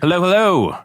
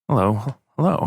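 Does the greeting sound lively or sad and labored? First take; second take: lively; sad and labored. First: It is said in a lively, upbeat way. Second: It is said in a sad, labored way.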